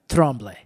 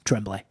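First: It is said with a French Canadian pronunciation. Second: It is said with an American pronunciation.

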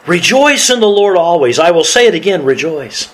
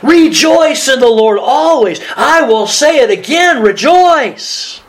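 First: It is read with fairly low energy. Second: It is read joyfully with high energy.

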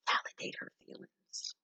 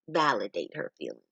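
First: It is whispered. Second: It is said aloud in full voice.

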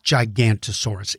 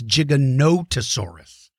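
First: The name is said without a 'no' syllable. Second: The name is said with a 'no' syllable. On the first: The speaker calls it wrong. "so many young people think its name is Gigantosaurus. And it's not Gigantosaurus" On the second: The speaker calls it right. "it's Giganotosaurus"

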